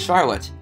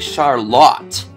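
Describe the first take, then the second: First: The name is said the familiar, everyday way. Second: The name is said an unfamiliar, local way. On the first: The speaker calls it wrong. "what is not pronounced as" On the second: The speaker calls it right. "but apparently"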